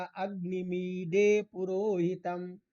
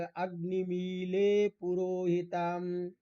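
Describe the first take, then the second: First: अग्निमीडे with a retroflex ड, मी-डे; retroflex d pronunciation. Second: अग्निमीले with a clear l sound, मी-ले; l pronunciation. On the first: Teacher reciting the same mantra the other way, with retroflex d. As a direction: say अग्निमीडे पुरोहितम, tongue curled back on ड. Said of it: "कोई उसी को पढ़ेगा". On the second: Teacher reciting the mantra the first way, with l. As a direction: say अग्निमीले पुरोहितम with l, not retroflex d. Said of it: "कोई बोलेगा, मंत्र बोलता है तो बोले". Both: Shown as a demonstration.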